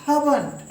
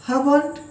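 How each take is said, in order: Both takes have the same delivery.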